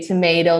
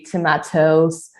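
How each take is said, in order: First: It is said with an American accent. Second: It is said with a British accent. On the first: "they don't say tomato" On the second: "they say tomatoes"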